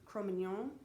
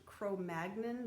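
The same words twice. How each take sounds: First: It is said in the speaker's own pronunciation. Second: It is said in the popular pronunciation. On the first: The speaker calls it right. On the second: The speaker calls it wrong.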